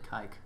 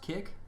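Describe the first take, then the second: First: The vowel is a long i, as in bike. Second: The vowel is a short i, as in kick. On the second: "Is it pronounced kick?"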